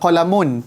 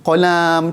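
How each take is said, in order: First: The vowel after the l is short. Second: The vowel after the l is drawn out long. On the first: The speaker calls it right. "tak tak panjang kan?" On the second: The speaker calls it wrong. "tiba dia letak alif kat situ"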